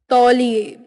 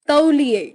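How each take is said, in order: First: Said in the usual way. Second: Gliding "a-u" in तौलिए; eastern UP pronunciation. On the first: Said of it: "Hindi उच्चारण". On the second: Shown as a demonstration. Teacher showing eastern UP speech, तौलिए as ta-uliye. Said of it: "पूर्वी उत्तर प्रदेश उच्चारण".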